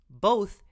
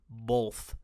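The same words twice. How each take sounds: First: It uses the preferred, usual pronunciation of the word. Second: It uses the disliked, newer pronunciation of the word. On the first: The speaker calls it right. "Both is so much better" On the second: The speaker calls it wrong. "Ugh, both. What a disgusting word"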